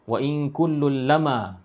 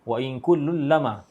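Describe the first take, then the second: First: The m in lamma is short and single. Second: The same.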